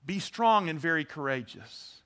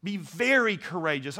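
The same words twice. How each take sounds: First: Said in the usual way. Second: VERY punched out above the other words; stress on VERY. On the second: Shown as a demonstration. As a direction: hit the word very hard. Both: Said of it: "you emphasize different words".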